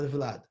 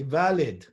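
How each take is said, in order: First: "Vlad" with V and L run together; one-syllable pronunciation. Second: "Valid" with a vowel between V and L; two-syllable pronunciation. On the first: Teacher contrasts the usual form, "Vlad" in one syllable. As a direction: say "Vlad" with no vowel after V. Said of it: "not Vlad". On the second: Teacher quotes his rabbi's pronunciation, "Valid" in two syllables. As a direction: split "Valid" into va-lid. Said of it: "he used to say Valid". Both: Shown as a demonstration.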